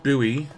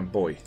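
First: The word is said with an American pronunciation. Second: The word is said with an Australian pronunciation. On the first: The speaker calls it wrong. "I pronounced it buoy, like an American" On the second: The speaker calls it right. "I should pronounce it like an Australian and call it a boy"

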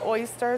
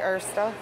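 First: The first vowel sounds like 'oy'. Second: The first vowel sounds like 'er'. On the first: "instead of saying oyster" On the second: "they say ersta"

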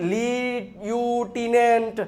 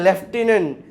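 First: The word begins with 'lyoo'. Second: The word begins with 'lef'. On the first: The speaker calls it wrong. "મન પડે એવું વાંચતા હોય" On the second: The speaker calls it right. "સાહેબ આ છે લેફ્ટિનન્ટ"

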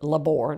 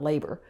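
First: The stress is on the second syllable. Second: The stress is on the first syllable. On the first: The speaker calls it right. "we pronounce it labor" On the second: The speaker calls it wrong. "not labor"

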